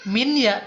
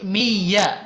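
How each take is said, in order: First: The n is heard clearly before the y. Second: The n merges into the following y. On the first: The speaker calls it wrong. "maka tidak min ya" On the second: The speaker calls it right. "tapi mi ya"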